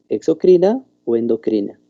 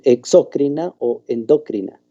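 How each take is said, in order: First: The stress falls on the second-to-last syllable. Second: The stress falls before the second-to-last syllable. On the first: The speaker calls it right. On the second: The speaker calls it wrong. "no tiene tilde, entonces no me nombren"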